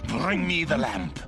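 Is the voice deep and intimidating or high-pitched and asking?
deep. It sounds deep and intimidating, like a demand.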